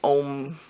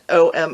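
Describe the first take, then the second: First: It is said as a single one-syllable word. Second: It is spelled out as two separate letters. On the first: The speaker calls it right. "no, it's supposed to be Om" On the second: The speaker calls it wrong. "I was pronouncing it O M Opal"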